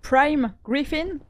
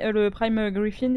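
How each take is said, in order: First: "Prime Griffin" drawn out very slowly with a careful English-sounding accent; English accent attempt. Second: "Prime Griffin" said quickly in French vowels; just drop the name in passing; French-accented English. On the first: Shown as a demonstration. Answering the accent compliment, slow playful English accent. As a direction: savour the English name, showing off the accent. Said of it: "je travaille mon accent ces derniers temps". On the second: Real, not acted. Naming the creature to the team, offhand French pronunciation. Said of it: "j'aime bien ton accent".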